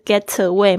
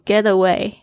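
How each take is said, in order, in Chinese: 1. 这个 t 是清晰的清音 t。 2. 这个 t 浊化了，介于 t 和 d 之间。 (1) "不是get away 吗？" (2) "浊化了就变成get away"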